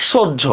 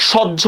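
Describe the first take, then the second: First: সহ্য with a rounded "o", shoj-jho; correct o vowel. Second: সহ্য with an open "aw", shawj-jho; wrong open vowel. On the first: Teacher correcting for students, সহ্য with closed "o". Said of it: "সহ্য না, হ্যাঁ, সহ্য". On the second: Teacher showing students the wrong form, সহ্য with open "aw". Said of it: "সহ্য না". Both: Shown as a demonstration.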